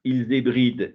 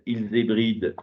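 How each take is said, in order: First: It is read in a flat, neutral way. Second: The same.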